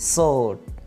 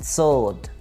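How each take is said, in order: The two takes are said the same way.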